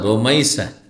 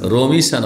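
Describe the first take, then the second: First: The middle vowel is an ai glide. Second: The middle vowel is a plain short i. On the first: The speaker calls it right. "শুদ্ধ নাম উচ্চারণ" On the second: The speaker calls it wrong. "রমিসা না"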